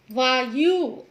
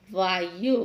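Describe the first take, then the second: First: वायु with long falling yoo; mispronounced वायु. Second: वायु low, with short yu; correct वायु. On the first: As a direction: stretch the final u of वायु. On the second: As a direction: keep the final u of वायु short. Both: Shown as a demonstration. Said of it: "जिनका हम गलत उच्चारण".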